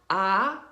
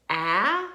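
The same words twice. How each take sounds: First: "ah" said as the vowel in father; open AH sound. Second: "ah" said as the vowel in dad; short A sound. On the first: Teacher contrasting A sounds, "ah" as in father. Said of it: "that A sounds like an ah". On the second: Teacher contrasting A sounds, "ah" as in dad. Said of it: "that's the short ah sound". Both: Shown as a demonstration.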